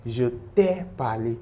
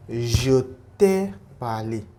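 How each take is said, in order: First: Said in the usual way. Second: Je t'ai parlé spelled out slowly, each syllable clear; slow model phrase. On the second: Shown as a demonstration. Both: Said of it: "we saw something there, like".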